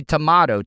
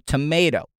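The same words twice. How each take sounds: First: "tomato" with a broad "ah", toh-MAH-to. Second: "tomato" with a long "ay", toh-MAY-to. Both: Shown as a demonstration. Host contrasting two ways to say "tomato". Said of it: "Some people say tomato".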